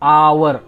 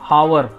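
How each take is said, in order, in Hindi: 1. शब्द स्वर से शुरू होता है, इसमें h नहीं है। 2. शब्द एक सुनाई देने वाली h की आवाज़ से शुरू होता है। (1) "आ से हो रहा है" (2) "ये नहीं बोलते हावर"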